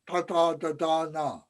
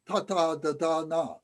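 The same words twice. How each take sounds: First: The tongue touches far back on the palate. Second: The tongue touches just behind the front teeth. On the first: "our tongue is on the roof of our mouth, back in the back of our palate" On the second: "our tongue is on the roof of our mouth right behind our front teeth"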